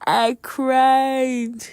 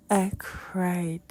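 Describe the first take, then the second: First: High, loud, drawn-out mock crying; dramatized wail. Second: Subdued repeat. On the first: Retelling her breakdown in church, mock wailing. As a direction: wail it out, hammed-up. Dramatizes how she cried, first take. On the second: Retold or imitated. Repeats it, subsiding.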